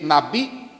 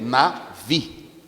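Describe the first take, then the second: First: The middle consonant is a hard b sound. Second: The middle consonant is a soft v sound. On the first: The speaker calls it wrong. "a gente lê na bi" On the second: The speaker calls it right. "como não tem o daguechezinho, eu vou ler diferente"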